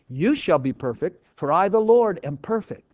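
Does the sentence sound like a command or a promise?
promise. It is read as a reassuring promise. The speaker will bring it about for the listener. "In other words, I'm promising that the good work I began in you, I will surely"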